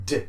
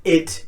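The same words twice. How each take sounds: First: "D" as a short "duh", no vowel before it; bare D sound. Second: "id" stressed as a full syllable with a vowel. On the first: Teacher correcting to the right sound, a short "d". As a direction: tap out a short "d", not its letter name. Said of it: "but a D sound". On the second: Teacher ruling out the wrong sound, a stressed "id". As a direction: hit "id" louder, vowel before the d. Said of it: "Not an id". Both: Shown as a demonstration.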